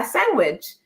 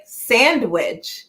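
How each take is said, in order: First: SANDWICH echoed as "sang-wich", no d; oblivious mispronunciation. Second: SANDWICH with a clear "sand", d sounded; correcting pronunciation. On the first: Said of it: "I could not hear it for the love of me". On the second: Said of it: "No, you're saying sandwich". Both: Retold or imitated.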